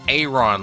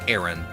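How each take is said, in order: First: The first vowel sounds like the letter A. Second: The first vowel does not sound like letter A. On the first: "like you're pronouncing like a capital letter A" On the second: "I just call it Aaron"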